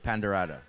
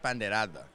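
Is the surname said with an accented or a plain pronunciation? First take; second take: plain; accented. First: The surname is said in a plain, anglicized way. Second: The surname is said with its native accent.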